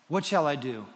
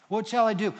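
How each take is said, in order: First: Said in the usual way. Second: Loud, high, urgent question; eager surrender. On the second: Retold or imitated. Paul answers Jesus on the road, eager surrender. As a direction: burst out, ready to obey. Repeats Paul's answer with fervor.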